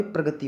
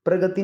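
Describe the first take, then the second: First: प्रगति with a joined "pra"; correct pronunciation. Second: प्रगति opened out loosely, "para-gati"; wrong pronunciation. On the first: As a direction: teach प्रगति as "pra-gati". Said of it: "प्रगति होता है". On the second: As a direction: show प्रगति as the mistaken form, slightly raised. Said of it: "प्रगति नहीं होता भाई". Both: Shown as a demonstration.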